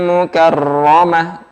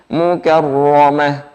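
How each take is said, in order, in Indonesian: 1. Huruf r digetarkan, ada getarannya. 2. Huruf r dibaca tebal dan ditekan, tanpa getaran. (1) "Kalau bergetar seperti ini" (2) "Tebal, ditekan dan tidak ada getarannya"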